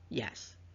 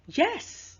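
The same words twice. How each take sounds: First: It is said in a plain, neutral tone. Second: It is said in an excited, enthusiastic tone. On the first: "So we have neutral, as in yes" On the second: "enthusiasm, you know, kind of bit, you know, enthusiastic about it"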